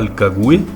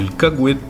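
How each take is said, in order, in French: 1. Le mot se termine sans aucun son T final. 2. Le mot se termine avec un T final léger. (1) "pas le cagouet" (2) "en mettant le T très légèrement à la fin"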